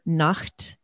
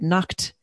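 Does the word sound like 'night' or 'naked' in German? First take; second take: night; naked. First: It sounds like the German word for night. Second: It sounds like the German word for naked. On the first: It means night. The speaker calls it right. "I learned the word Nacht, which means night" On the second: It means naked. The speaker calls it wrong. "I pronounced it incorrectly. I said Nacht"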